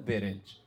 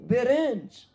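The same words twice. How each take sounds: First: The word is said flatly, without wonder. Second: The word is said with awe and wonder. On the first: The thing is taken for granted. The speaker calls it wrong. "نگو برنج" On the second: The thing is seen as a marvel. The speaker calls it right. "بگو برنج"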